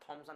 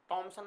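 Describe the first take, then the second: First: It begins with an aspirated 'th'. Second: It begins with a plain unaspirated 't'. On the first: The speaker calls it right. "थॉम्सन है" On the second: The speaker calls it wrong. "टॉमसन मत बोलना"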